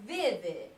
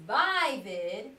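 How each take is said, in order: First: Vivid with short I, as in "give"; short I pronunciation. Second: Vivid with long I, first syllable "vie"; long I pronunciation. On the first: Teacher gives the second option, vivid with short I. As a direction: say vivid slowly as VIV-id. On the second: Teacher tries out a reading, vivid with long I. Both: Shown as a demonstration. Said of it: "So I have a decision to make".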